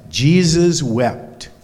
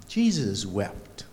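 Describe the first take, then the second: First: Jesus wept, spoken slowly, each word weighted; slow emphatic answer. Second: Jesus wept, softer and slow, tender; gentle reassurance. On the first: Shown as a demonstration. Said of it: "He wept". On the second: Acted. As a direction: say "Jesus wept" softly and slowly, consoling. Reassuring children it's okay to cry.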